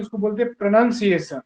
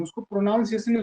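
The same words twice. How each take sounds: First: प्रोनाउंसिएशन said the right way, clearly; correct pronunciation. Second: प्रोनाउंसिएशन said the wrong way, quick and softer; wrong pronunciation. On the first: Teacher giving students the correct way to say प्रोनाउंसिएशन. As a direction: set प्रोनाउंसिएशन out as the proper model. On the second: Teacher showing students the wrong way to say प्रोनाउंसिएशन. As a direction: toss off प्रोनाउंसिएशन as the mistaken version. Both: Shown as a demonstration.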